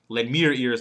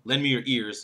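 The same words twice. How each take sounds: First: The word me is stressed. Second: The word ears is stressed. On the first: Give them to me, not someone else. "Second one, not somebody else" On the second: Give ears, not another body part. "And the fourth one, not your hands"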